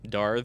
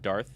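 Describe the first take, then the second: First: The final th sound is voiced. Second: The final th sound is voiceless.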